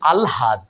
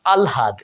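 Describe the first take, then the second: First: An l is followed by an h sound. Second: The same.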